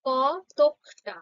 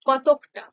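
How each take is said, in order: First: কতকটা said very slowly as কত-ক-টা; a teacher slowly splits the word into syllables; slow syllable demo. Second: Said in the usual way. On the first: Shown as a demonstration. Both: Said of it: "যেমনটা উচ্চারণ করছি দেখো".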